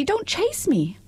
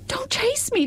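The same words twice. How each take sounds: First: High, frightened repeat with Don't stressed; frightened little voice. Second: Very high, frightened cry of chase; plead, scared, with chase falling; frightened little voice. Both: Acted. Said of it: "such a frightened little voice".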